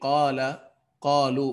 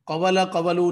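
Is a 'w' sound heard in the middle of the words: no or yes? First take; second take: no; yes. First: Each word has one long vowel without 'w'. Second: A 'w' sound splits each word in the middle. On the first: The speaker calls it right. "बल्कि कौला, कौलू" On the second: The speaker calls it wrong. "कवला कवलू नहीं हुआ"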